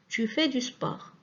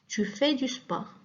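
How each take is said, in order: No difference in how they are said.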